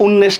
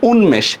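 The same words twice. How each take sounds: First: উন্মেষ as un-nesh, m lost; wrong pronunciation. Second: উন্মেষ as un-mesh, m clearly sounded; correct pronunciation. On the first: Teacher rejecting a misreading for students, উন্মেষ said un-nesh. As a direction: turn the m of উন্মেষ into a doubled n. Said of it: "উন্মেষ না, এটা কি বলি?". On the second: Teacher answering her own question for students, উন্মেষ with clear m. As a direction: keep both n and m audible in উন্মেষ. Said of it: "এটা কি বলি?". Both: Shown as a demonstration.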